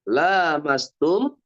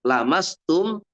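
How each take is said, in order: First: The first vowel is held long. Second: The first vowel is kept short. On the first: It refers to mutual touching, understood as intercourse. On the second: It refers to skin touching skin.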